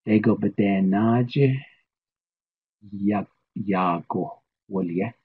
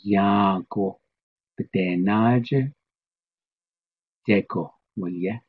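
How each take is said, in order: First: "naje, ya, yago" drawn out slowly; slow Navajo statement. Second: "naje" drawn out, "deko, waliye" brisker; slow Navajo statement. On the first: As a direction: model the sentence very slowly. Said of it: "let's try our statement". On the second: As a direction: say the reversed sentence slowly. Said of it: "The other way". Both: Shown as a demonstration.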